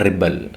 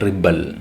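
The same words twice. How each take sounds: No difference in how they are said.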